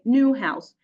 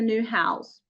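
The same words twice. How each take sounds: First: The stress falls on the word new. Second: The stress falls on the word house. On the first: The speaker calls it wrong. "we do not say new house" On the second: The speaker calls it right. "the stress on the noun is stronger than that of the, the adjective"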